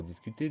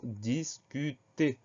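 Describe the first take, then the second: First: Said in the usual way. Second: DISCUTER drawn out as dis-cu-ter; syllable by syllable. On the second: Shown as a demonstration. Teacher introduces the next dictation word, syllable by syllable. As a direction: say discuter slowly, each syllable set apart.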